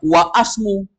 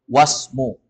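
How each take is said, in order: First: An 'a' vowel is sounded before 'smu'. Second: No vowel is sounded before 'smu'. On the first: The speaker calls it wrong. "Jangan dibaca wa asmu" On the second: The speaker calls it right. "hamzah wasol gak dibaca. Langsung masuk ke huruf berikutnya"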